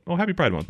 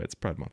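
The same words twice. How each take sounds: First: Bright, higher festive wish; cheery greeting. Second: Said in the usual way. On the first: Acted. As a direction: sing out a happy holiday greeting.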